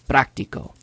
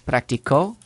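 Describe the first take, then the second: First: The stress is on the first syllable. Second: The stress is on the last syllable. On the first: It names the thing itself. "there's a written accent" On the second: Someone else practiced in the past. "He practiced"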